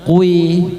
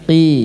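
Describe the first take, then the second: First: The syllable is heavy, with a rounded vowel. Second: The syllable is lighter, with a plain vowel. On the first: The speaker calls it wrong. "Jangan kui" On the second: The speaker calls it right. "tapi qi"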